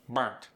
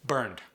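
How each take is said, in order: First: "Burnt" ending in T, not D. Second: Said in the usual way. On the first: Shown as a demonstration. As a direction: sneak a T onto the end of "Burnt". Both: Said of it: "sneak a T in".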